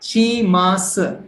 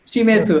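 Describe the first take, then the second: First: शिमास said slowly, shi-mas with the final u dropped; correct Japanese pronunciation. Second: शिमेसु with a full e and a final u, anglicized; English-style mispronunciation. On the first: Teacher giving the right reading after the wrong one. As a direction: model शिमास clearly and slowly. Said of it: "तो वो नहीं पढ़ेंगे इसको". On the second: Teacher contrasting the wrong reading with the right one. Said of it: "English pronunciation ना". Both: Shown as a demonstration.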